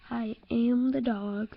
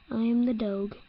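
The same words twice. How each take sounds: First: Slow, proud I am the dog with am stressed; slow proud claim; slow declaration. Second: Said in the usual way. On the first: Pretend. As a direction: savor it slowly like a grand announcement. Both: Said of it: "I am the dog repeated".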